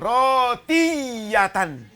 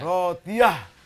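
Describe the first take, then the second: First: The word ends with a full -tan ending. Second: The word ends with a soft h sound. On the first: The reader does not stop at the end of the word. "saya baca tidak pakai wakaf" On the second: The reader stops at the end of the word. "Kalau ini tertutup jadi diakhiri dibaca rotiyah"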